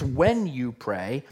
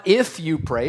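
First: "when" stressed and drawn out slowly; slow down and lean on "when". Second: "if" punched as the word being rejected; stress on if. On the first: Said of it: "it's when you pray". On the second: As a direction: lean hard on "if". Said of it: "It's not if you pray". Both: Shown as a demonstration.

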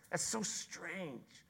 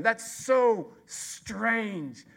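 First: That's so strange, dropped soft and slow, lingering on so; a quiet, drawn-out awe; slow soft marvel. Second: That's so strange, drawn out slowly and loud, peak on so; stretched out in loud wonder; slow loud marvel. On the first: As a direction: hush it in wonder. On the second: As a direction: marvel loudly at it. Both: Acted. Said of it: "contrasting exclamation".

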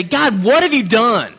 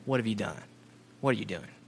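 First: Raised, slow, desperate outcry at God; loud cry to God. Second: The question hushed and much softer, almost breathed; soft reverent quote. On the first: Alone on a village path, crying out loud to God. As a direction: hurl the question upward, slowly. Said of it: "I say literally out loud". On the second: Preacher reciting scripture's question back to God, softly. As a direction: let the words fall away in awe. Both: Retold or imitated.

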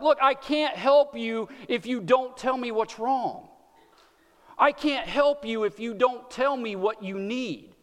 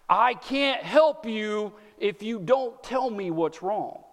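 First: Put-on slow, patient parent to a fussing child. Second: Slow, tender plea from God; gentle God voice. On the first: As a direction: coax it out gently, slowly. Parent voicing to crying kids. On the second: Retold or imitated. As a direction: say it slowly, inviting an answer. God voiced saying same line.

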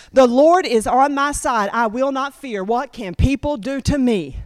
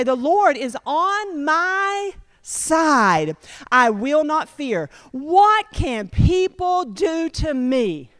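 First: Said in the usual way. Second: Slow, reverent recitation of the verse; slow scripture reading. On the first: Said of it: "memorize that one scripture". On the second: Acted. Preacher reading the psalm to the congregation, slowly and reverently. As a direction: draw every word out like a proclamation. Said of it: "Then it goes on to say".

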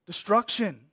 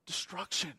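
First: Said in the usual way. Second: Almost breathe the word destruction; dropped, quiet destruction; hushed. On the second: Shown as a demonstration. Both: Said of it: "word repeated for weight".

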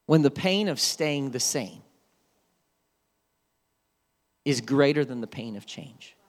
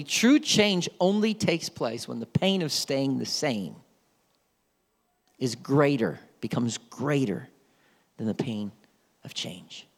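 First: Each phrase set apart by long pauses; slow emphatic saying. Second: Fading softer phrase by phrase to a whisper; slow fading saying. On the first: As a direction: let every phrase land, with pauses between. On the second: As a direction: let the line sink away to a breath. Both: Shown as a demonstration. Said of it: "I always say this about true change".

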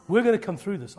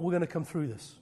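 First: Faith declared louder; louder faith declaration. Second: Said in the usual way. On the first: Real, not acted. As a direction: proclaim it to the room with force. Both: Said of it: "I'm preaching faith into you".

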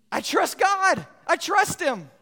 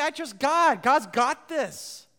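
First: Mock confident claim. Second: Mock easy confidence. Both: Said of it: "It's easy to say".

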